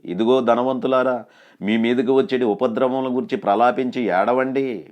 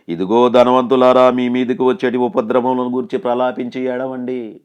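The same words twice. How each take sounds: First: Said in the usual way. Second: Thundering pulpit reading; proclaimed scripture. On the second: Acted. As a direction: declaim the verse like a prophet. Preacher proclaims scripture verse loudly.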